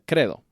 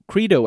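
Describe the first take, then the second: First: It is said with a Spanish accent. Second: It is said with an English accent.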